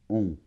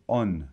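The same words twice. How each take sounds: First: A nasal vowel with no N consonant. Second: The vowel is followed by an audible N. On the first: The speaker calls it right. "c'est on. On" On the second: The speaker calls it wrong. "tu ne dois pas dire on. Non, non. On n'entend pas la lettre N"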